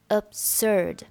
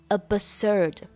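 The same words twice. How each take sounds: First: The b in the middle is not sounded. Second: The b in the middle is clearly sounded. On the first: The speaker calls it right. "但是不用发出声音来" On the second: The speaker calls it wrong. "你不需要读成absurd"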